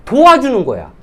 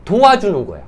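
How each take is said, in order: First: 도와주는 hit higher and louder; stress on helping. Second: Said in the usual way. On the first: Shown as a demonstration. Trainer correcting trainees, hitting 도와주는 hard. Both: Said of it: "아쉬운 소리 한다 생각을 하는 거야".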